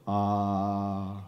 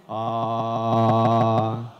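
First: Low resonant ah. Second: A long, loud open "Ah" to feel the voice buzz; loud held resonant ah. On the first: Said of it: "Timbre is the way your voice feels". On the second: Speaker coaching the audience to feel timbre, loud sustained ah. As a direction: sustain a full "Ah" and let the chest ring. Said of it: "can you feel your voice". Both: Shown as a demonstration.

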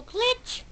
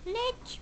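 First: Glitch squeaked high with a rising tune; high squeaky Glitch. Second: Glitch squeaked high but much softer, rising; whisper-soft echo of Glitch, still high. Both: Pretend. Echoing the game's word.

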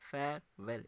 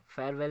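First: "फेयरवेल" in two separate beats, फेयर-वेल; split into syllables. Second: Said in the usual way. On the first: Shown as a demonstration. Teacher showing two syllables, "फेयरवेल" split in two. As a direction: say "फेयरवेल" with a break before वेल. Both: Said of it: "इसमें दो syllables आ रहे".

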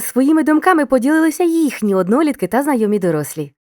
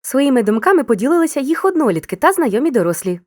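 First: Says «їхні однолітки» with the correct possessive їхні; careful corrected «їхні однолітки», clearly set right; corrected form їхні. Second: Says «їх однолітки» with the wrong pronoun їх; «їх однолітки», the error form, said plainly as a slip. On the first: Teacher gives the correct sentence to the pupils: «їхні однолітки». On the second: Teacher repeats the pupils' mistake: «їх однолітки». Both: Shown as a demonstration. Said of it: "Чому не їх, а їхні однолітки?".

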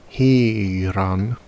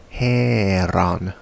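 First: Heron with the West Saxon vowel, rising; West Saxon form. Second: Heron with the Anglian vowel, slow and drawn out; Anglian form. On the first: Teacher showing viewers the West Saxon Heron. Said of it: "West Saxon writes". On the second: Teacher showing viewers the Anglian Heron. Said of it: "Anglian writes". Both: Shown as a demonstration.

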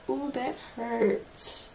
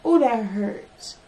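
First: Softer, slower "Oh, that hurts" under the breath; quiet pained wince. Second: Slow, louder "Oh, that hurts"; pained complaint. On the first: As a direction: let the sting sink in quietly. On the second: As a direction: push the hurt out loud. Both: Real, not acted. Nail pain, said twice.

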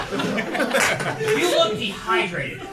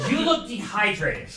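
First: Very slow repeat. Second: Said in the usual way. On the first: Shown as a demonstration. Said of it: "repeats bar slowly". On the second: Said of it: "repeats bar after laugh".

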